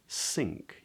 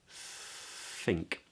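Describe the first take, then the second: First: The word begins with an s sound. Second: The word begins with a breathy th sound. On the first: The speaker calls it wrong. "it's not an S. It's not sink" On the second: The speaker calls it right. "But it's think"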